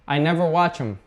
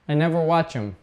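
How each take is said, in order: First: The 'th' of 'them' is dropped. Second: The same.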